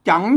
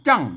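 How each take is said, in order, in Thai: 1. พยางค์นี้ออกเสียงวรรณยุกต์เสียงขึ้น 2. พยางค์นี้ออกเสียงวรรณยุกต์เสียงต่ำ (1) "จังเสียงจัตวา" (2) "ใส่ไม่เอก"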